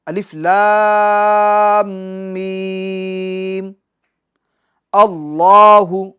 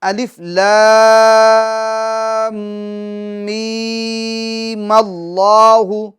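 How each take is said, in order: First: There is a pause after mim before allahu. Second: Mim runs straight into allahu as mallahu. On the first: "अगर आप अलिफ लाम मीम इस पर रुक जाते हैं, अब यहां सांस तोड़कर फिर अल्लाहु से शुरुआत करते" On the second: "मगर आप दोनों को मिला देते हैं"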